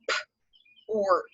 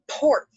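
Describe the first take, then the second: First: "P-ort" split, P apart from ort; segmenting "P-ort" for students; sound it out. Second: "Port" said loud and higher; emphatic word. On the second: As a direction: punch "Port" out. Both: Shown as a demonstration.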